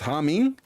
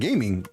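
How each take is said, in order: First: The first G is left silent. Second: The first G is clearly sounded. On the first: "The G is silent" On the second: "G is not silent"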